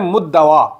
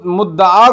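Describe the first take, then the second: First: The word ends in an added dawa sound. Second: The word ends in a short da sound. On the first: The speaker calls it wrong. "ये कहते हैं मुद्दवा" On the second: The speaker calls it right. "मुद्दा को"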